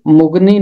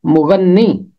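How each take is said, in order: First: مغنی said as mug-ni, the n single and no middle vowel; مغنی as two quick syllables, mug-ni; wrong pronunciation. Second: مغنی said as mu-gan-ni with a doubled n; مغنی carefully as mu-ghan-nee, double n; correct pronunciation. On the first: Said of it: "اس کا تلفظ مغنی نہیں ہے". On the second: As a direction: give مغنی three syllables, mu-gan-ni, and hold the n. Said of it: "اس کا تلفظ ہے مغنی". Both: Shown as a demonstration.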